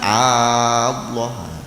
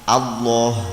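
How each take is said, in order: First: The first vowel is drawn out long. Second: The first vowel is kept short. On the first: It asks whether God is really great. The speaker calls it wrong. "jangan dipanjangkan" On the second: It states that God is great. The speaker calls it right. "Allah A"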